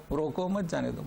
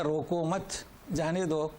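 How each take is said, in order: First: "روکو مت جانے دو" said with no pause after مت; no break after مت; phrase run together. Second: "روکو مت" then a pause before "جانے دو"; pause after مت. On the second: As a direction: break the phrase right after مت. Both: Shown as a demonstration. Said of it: "جیسے کہتے ہیں نا".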